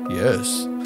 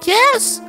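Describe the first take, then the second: First: It is said in a deeper voice. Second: It is said in a higher, normal voice.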